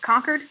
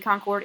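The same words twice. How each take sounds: First: Concord said the Massachusetts way, like "conquered"; local pronunciation. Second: Said in the usual way. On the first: Shown as a demonstration. Teacher showing how Massachusetts people say it, Concord pronounced like "conquered". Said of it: "you pronounce it Concord".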